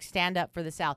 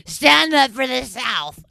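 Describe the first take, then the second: First: Said in the usual way. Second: Loud, slow, slurred rough holler; drunk voice imitation. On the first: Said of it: "I'm saying something like that". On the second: Mocking her old drunk self on video, rough drunken holler. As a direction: drag it out like a raspy drunk yelling. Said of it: "my voice sounds like that".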